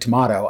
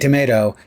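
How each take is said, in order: First: It is said with a British pronunciation. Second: It is said with an American pronunciation. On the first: "the British say tomato" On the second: "we say tomato"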